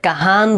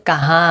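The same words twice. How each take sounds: First: কাহান with a clear spoken n at the end; কাহান ending on a plain n, as it is not said; full n ending. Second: কাহা with the final noon only nasalised; কাহা ending in a nasal vowel, no full n. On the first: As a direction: say কাহান sounding the final n plainly. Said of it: "এখানে কাহান বলে নেই". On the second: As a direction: say কাহা with the n going into the nose. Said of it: "এখানে বলছে কাহা". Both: Shown as a demonstration.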